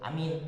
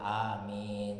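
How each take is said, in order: First: The vowels are clipped very short. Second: The vowels are drawn out long. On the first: The speaker calls it wrong. "jangan nggak boleh itu amin" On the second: The speaker calls it right. "amin itu enam harakat jadi amin"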